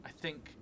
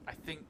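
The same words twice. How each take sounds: The two takes are said the same way.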